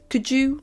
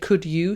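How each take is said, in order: First: The two words blend together into one reduced form. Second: The two words are said separately and fully. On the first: "she says could you? ... don't say the exact words as they are written" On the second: "instead of saying could you"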